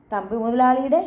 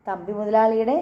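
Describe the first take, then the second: First: "മുതലാളിയുടെ" with a rising, questioning end; puzzled echo. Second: Said in the usual way. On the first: Acted. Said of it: "Shailaja നെറ്റി ചുളിച്ചു". ("മുതലാളിയുടെ" ചോദ്യഭാവത്തിൽ, അവസാനം ഉയർത്തി)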